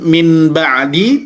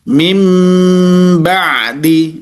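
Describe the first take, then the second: First: A clear n sound comes before the b. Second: An m sound comes before the b. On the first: The speaker calls it wrong. "tidak diidharkan min ba'di" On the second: The speaker calls it right. "mim bukan min tapi mim ba'di"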